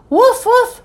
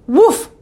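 First: Two high-pitched woofs; insistent dog bark. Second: Single high woof; dog bark. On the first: Ebb trying to get busy Mom's attention, barking. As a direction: bark twice, more urgently. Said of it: "even louder". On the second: Ebb fetching help for the seal, barking. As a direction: give one brisk little bark. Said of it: "barked Ebb". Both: A narrator's reading.

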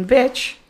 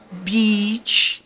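First: "bitch" with a short, lax i; quick, clear "bitch"; short vowel demo. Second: "beach" with a long, stretched ee; teacher's slow, clear "beach"; long vowel demo. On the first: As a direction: keep the i in "bitch" brief and relaxed. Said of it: "Aí é som de vogal". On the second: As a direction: hold the ee in "beach". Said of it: "exatamente a, a diferença". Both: Shown as a demonstration.

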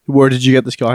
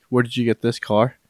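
First: Firmer, louder repeat of the question; retold insistent demand. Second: Said in the usual way. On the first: Mafia boss questioning his men about the car, retold insistently. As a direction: press the question home, mildly acted.

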